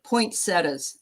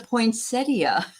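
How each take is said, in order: First: The word is said in a nonstandard way. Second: The word is said in the standard way. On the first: This is how the speaker said it growing up. The speaker calls it wrong. "I'm going to say how I used to say it" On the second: This is how the word is properly said. The speaker calls it right. "it's a poinsettia"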